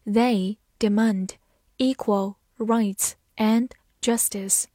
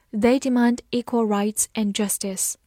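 First: Slow, careful read of They demand equal rights and justice. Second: Said in the usual way. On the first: Shown as a demonstration. Teacher to students, reading slowly so they can follow. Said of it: "好，慢慢来读。". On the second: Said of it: "慢慢来读".

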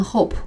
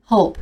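First: Hope with too heavy a final p; mispronounced hope. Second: Hope with a lightly released final p; light final sound. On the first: Teacher warns against this reading, heavy-ended hope. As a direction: overdo the p ending hope. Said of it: "千万不要发成hope". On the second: Teacher models the correct reading, light-ended hope. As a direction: let the p ending hope go gently. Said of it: "尾音要轻一些". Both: Shown as a demonstration.

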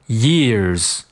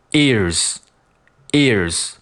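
First: YEARS begun with an open "yeh" glide. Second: EARS begun straight on the "ee" vowel; ears without y. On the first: Teacher contrasting years with ears, clear y-glide. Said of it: "我先读年份". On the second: Teacher contrasting ears with years, pure vowel onset. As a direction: say "ears" with no y glide, mouth unchanged. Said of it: "我再读耳朵". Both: Shown as a demonstration.

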